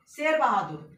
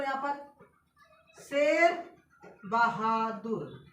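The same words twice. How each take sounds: First: Said in the usual way. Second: Slow drawn-out. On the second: Shown as a demonstration. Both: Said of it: "यहाँ पर देखो एक और नाम देख लो".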